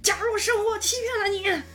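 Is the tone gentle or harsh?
harsh. It is said in a harsh, angry tone.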